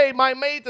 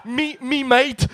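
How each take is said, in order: First: Put-on mediocre Australian accent; a so-so Aussie "hey mate". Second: Slow laughing Aussie "mate"; Australian accent. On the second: Retold or imitated. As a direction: drawl it out like a cheery Aussie bloke. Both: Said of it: "mon accent australien est moyen".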